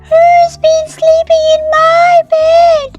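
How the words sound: It is a tiny, high, squeaky voice.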